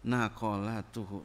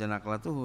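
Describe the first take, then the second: First: A short a is heard between q and l. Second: No vowel is heard between q and l. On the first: The speaker calls it right. "Naqalatuhu. Beda itu" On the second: The speaker calls it wrong. "Jangan kamu baca naqlatuhu ya"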